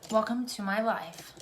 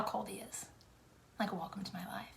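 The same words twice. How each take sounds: First: Said in the usual way. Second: Hushed sarcastic aside; whispered aside. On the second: Real, not acted. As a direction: whisper it dryly. Whispered complaint.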